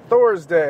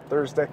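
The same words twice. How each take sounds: First: "Thor's Day" drawn out as two words, THOR stressed; Thursday as Thor's Day. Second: Said in the usual way. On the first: Pretend. Host naming the day for listeners, "Thor's Day" slow with THOR stressed.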